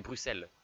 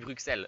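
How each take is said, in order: First: The x is pronounced as an s sound. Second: The x is pronounced as a ks sound. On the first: This is how people commonly say it. "But all of us say Bruxelles" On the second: This follows the spelling of the letter. "it's the sound X, so it should be Bruxelles"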